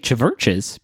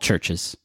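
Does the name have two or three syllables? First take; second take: three; two. First: The name is said with three syllables. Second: The name is said with two syllables. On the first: The speaker calls it wrong. "a lot of people see the name and they say Chiverches because there is a V in there" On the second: The speaker calls it right. "the V is pronounced like a U"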